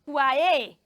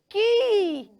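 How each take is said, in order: First: The word is said with a kw- and long a. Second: The word is said like key, with no w. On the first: The speaker calls it wrong. "Do you say Kwae or Kwaya or Kwe?" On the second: The speaker calls it right. "is pronounced Ki"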